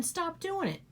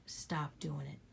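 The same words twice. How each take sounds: First: Raised, forceful push on stop doing it; firm command. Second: Soft, unvoiced whisper of stop doing it. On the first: To the viewers, a forceful raised command. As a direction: tell them straight, no excuses. Urging listeners to change. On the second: To the viewers repeating her advice, a hushed whisper. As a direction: let it land as a hushed secret. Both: Real, not acted.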